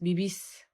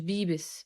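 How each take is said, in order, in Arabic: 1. تقع النبرة على المقطع الأخير. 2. تقع النبرة على المقطع الأول. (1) "بيبيس الأسنتو" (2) "مش بيبس"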